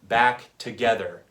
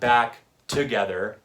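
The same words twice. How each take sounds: First: The stress falls on 'back' and 'ge'. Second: The stress falls away from 'back' and 'ge'. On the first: The speaker calls it right. "I'm putting emphasis on the syllables back and ge" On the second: The speaker calls it wrong.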